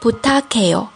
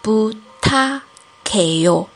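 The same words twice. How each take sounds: First: It is said fast. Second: It is said slowly.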